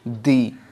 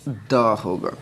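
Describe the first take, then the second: First: The vowel is a long 'ee' sound. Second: The vowel is a short 'uh' sound. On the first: The next word begins with a vowel sound. "इसके पहले T H E लगा हो तो इसको हम क्या बोलेंगे?" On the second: The next word begins with a consonant sound. "T H E लगा हो तो इसको हम द बोलेंगे।"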